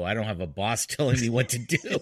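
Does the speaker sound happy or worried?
worried. It is said in a worried, uneasy tone. Having no boss is a bad thing.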